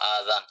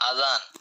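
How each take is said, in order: First: The first vowel is drawn out long. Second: The first vowel is short. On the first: It means ears. The speaker calls it wrong. "আলিফে টান দিয়ে পড়ে" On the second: It means the call to prayer. The speaker calls it right. "এখানে শব্দটা হলো আযান"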